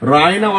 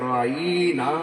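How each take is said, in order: First: The first vowel is said short and plain. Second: The first vowel is drawn out long. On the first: Look upon us with mercy. "রায়না অর্থ দয়ার দৃষ্টি করুন" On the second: It turns the word into an insult meaning shepherd. "রাইনা টান দিয়ে পড়ে রাখাল বলতো"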